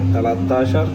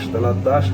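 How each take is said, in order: First: It is said as two separate full words. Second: It is said as one shortened, run-together word. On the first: "তেরো কে বলে থাকে" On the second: "আমরা যেহেতু পারি এভাবে টেনে বলি"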